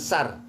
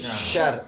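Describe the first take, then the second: First: The word begins with a plain s sound. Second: The word begins with an sh sound. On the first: The speaker calls it wrong. "Bukan sar" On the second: The speaker calls it right. "tapi syar. S Y A R"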